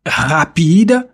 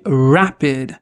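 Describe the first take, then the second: First: "rapide" with uvular French R; guttural R starting "rapide". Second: Slow, lower "rapid" with English R; rounded untrilled R starting "rapid". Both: Shown as a demonstration. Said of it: "qui diffère du français à l'anglais".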